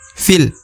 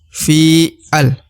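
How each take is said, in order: First: The vowel runs straight into the l sound. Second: The vowel is split from the final l sound. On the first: The speaker calls it right. "tapi dibaca fil" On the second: The speaker calls it wrong. "bukan fi'al"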